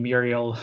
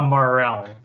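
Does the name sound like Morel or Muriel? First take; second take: Muriel; Morel. First: The name is said like Muriel. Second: The name is said like Morel. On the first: The speaker calls it wrong. "I think I'm mispronouncing your name" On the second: The speaker calls it right. "It is pronounced Morel"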